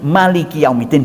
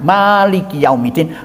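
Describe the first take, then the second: First: The first vowel of the first word is short. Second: The first vowel of the first word is long. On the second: "bisa dipanjangkan"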